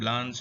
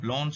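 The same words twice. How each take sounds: First: The name is said with an American pronunciation. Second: The name is said with a French pronunciation. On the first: "the American pronunciation" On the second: "pronounced Blanche in French"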